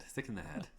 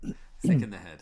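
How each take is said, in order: First: Much softer throwaway; quiet aside. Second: Punched out louder; louder punchline. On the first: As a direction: mutter it as an aside. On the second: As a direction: hit the joke loudly. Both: Shown as a demonstration. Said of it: "repeated delivery".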